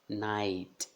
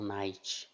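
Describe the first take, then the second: First: The final T is a soft plain t. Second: The final T hisses like a ch sound. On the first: The speaker calls it right. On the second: The speaker calls it wrong.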